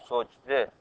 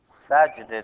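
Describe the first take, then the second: First: The first vowel is not an 'a' sound. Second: The first vowel is an 'a' sound. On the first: The speaker calls it wrong. "بعضی ها میگن سجده، ... هر دوش غلطه" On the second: The speaker calls it right. "سجده درسته با فتحه"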